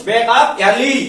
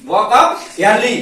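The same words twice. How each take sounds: First: Said in the usual way. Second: Very slow, spaced out; slow, deliberate repeat. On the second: Shown as a demonstration. Teacher repeating the English phrase very slowly for students. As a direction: drag out each word for the class to copy. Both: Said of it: "क्या संदेश दे रहा मुर्गा".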